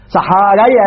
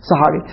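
First: "صحاري" ending in an open "ay"; fatha on the ra. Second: "صحاري" ending in a long ee; kasra on the ra. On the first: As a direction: say "صحاري" as saharay, a after the r. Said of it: "الكسرة الراء أبدلوها فتحة". («صحاري» بفتح الراء وبعدها ياء) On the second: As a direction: say "صحاري" with an i vowel after the r. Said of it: "صارت صحاري". («صحاري» بكسر الراء) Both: Shown as a demonstration.

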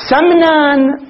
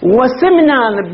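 First: "سمنان" said slowly as samnan, a after s; fatha on the sin. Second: "وسمنان" said slowly as wa-simnan, i after s; kasra on the sin. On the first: Teacher reads out the place name, "سمنان" slowly as samnan with fatha. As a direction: open the first vowel of "سمنان" to a, drawn out. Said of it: "بالفتح". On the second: Teacher names the town in Iran, "وسمنان" slowly as wa-simnan with kasra. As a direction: narrow the first vowel of "وسمنان" to i. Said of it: "بالكسر بلدة". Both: Shown as a demonstration.

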